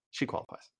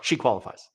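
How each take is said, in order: First: Breathy aside under the breath; hushed mocking echo; sarcastic whisper. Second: Said in the usual way. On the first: Shown as a demonstration. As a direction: whisper it back in disbelief. Repeats the line, then whispers it.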